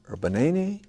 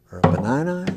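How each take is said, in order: First: "banana" said as ba-NAY-nee with a long a; questioning "banana" pronounced ba-NAY-nee; altered vowels. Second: "banana" said as ba-NYE-nye with long i vowels; questioning "banana" pronounced ba-NYE-nye; altered vowels. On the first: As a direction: turn "banana" into ba-NAY-nee, rising at the end. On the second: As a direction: turn the a's in "banana" into eye sounds, rising at the end. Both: Shown as a demonstration. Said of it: "Those sound like interesting fruits".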